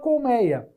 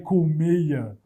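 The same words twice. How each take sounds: First: The 'ei' diphthong is said with an open vowel. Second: The 'ei' diphthong is said with a closed vowel. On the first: The speaker calls it right. "Continua colmeia" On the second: The speaker calls it wrong. "Ninguém vai pronunciar, ai, colmeia"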